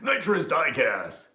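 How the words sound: It is said in a booming monster-truck announcer voice.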